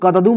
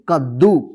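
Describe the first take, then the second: First: A vowel separates the two d sounds. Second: The d sound is held as one doubled consonant. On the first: The speaker calls it wrong. "मत पढ़िएगा" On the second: The speaker calls it right. "इसको क्या पढ़ेंगे?"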